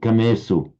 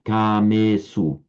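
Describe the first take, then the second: First: The first vowel is said short. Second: The first vowel is said long. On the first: The speaker calls it wrong. "would tend to slip into shortening the first one" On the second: The speaker calls it right. "make them both equally long"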